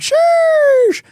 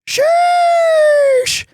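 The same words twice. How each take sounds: First: It is said short in an ordinary voice. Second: It is drawn out and high like a whistle.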